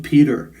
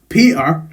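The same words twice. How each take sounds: First: It is said in an American accent. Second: It is said in a Scottish accent. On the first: "then I'll translate it into American" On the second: "with a Scottish voice in my head"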